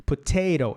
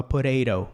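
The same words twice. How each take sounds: First: "Potato" with a crisp first T, tapped second; correct firm first T. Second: "potato" with both T's tapped; wrong softened first T. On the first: Teacher giving the right form, crisp first T. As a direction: say "Potato" as puh-TAY-ro. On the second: Teacher showing what we don't say, both T's tapped. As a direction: say "potato" like puh-RAY-ro. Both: Shown as a demonstration. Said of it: "a gente não fala".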